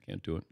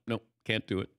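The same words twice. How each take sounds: First: Much softer and lower, fading out; quiet choked. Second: Said in the usual way. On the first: Retold or imitated. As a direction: let it fade to almost nothing. Choking up, refusing to speak.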